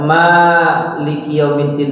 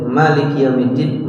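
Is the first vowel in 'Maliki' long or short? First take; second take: long; short. First: The first vowel, after the m, is long. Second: The first vowel, after the m, is short. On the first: "ma-nya panjang" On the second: "ma-nya pendek"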